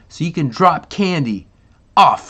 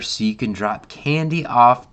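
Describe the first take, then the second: First: It is read lively, with more enthusiasm. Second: It is read flatly, with little enthusiasm. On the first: The speaker calls it right. "hopefully with more enthusiasm" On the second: The speaker calls it wrong. "I did not read that very well"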